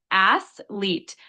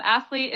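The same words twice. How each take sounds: First: "athlete" slowly split into two syllables, ath, leet; syllable breakdown. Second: Said in the usual way. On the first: Shown as a demonstration. Tutor breaks down the pronunciation for a learner, "athlete" syllable by syllable. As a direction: say "athlete" in two separate, drawn-out beats. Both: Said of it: "Could you break down pronunciation".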